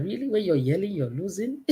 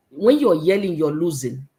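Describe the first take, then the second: First: "you're losing" softer, rising into a question; incredulous question. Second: Said in the usual way. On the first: Retold or imitated. Speaker retelling her reaction to radio saying, incredulous question. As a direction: echo it in mock disbelief, lifting the end of "losing".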